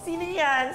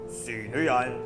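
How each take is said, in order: First: It is said in a scared, unmanly voice. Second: It is said in a deep, manly voice. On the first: The child gives up pretending to be manly. "Scared na ako" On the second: The child is trying to sound like a man. "dapat lalaki boses ko"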